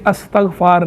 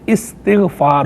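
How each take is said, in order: First: The word begins with an 'as' sound. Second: The word begins with an 'is' sound. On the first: The speaker calls it wrong. "ये अस्तग़फ़ार नहीं होता" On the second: The speaker calls it right. "ये इस्तिग़फ़ार होता है"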